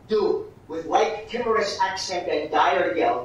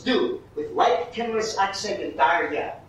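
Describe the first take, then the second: First: "timorous" and "dire" drawn out in every syllable; slow, loud line with "timorous" and "dire" in full syllables; uncut syllables. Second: "timorous" and "dire" squeezed into fewer syllables, like natural speech; syllables cut down. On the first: Director showing actors what Iago wouldn't say, "timorous" and "dire" uncut. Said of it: "he wouldn't say". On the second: Director showing actors natural urgent speech, "timorous" and "dire" cut down. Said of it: "What we gotta do is cut it down". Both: Shown as a demonstration.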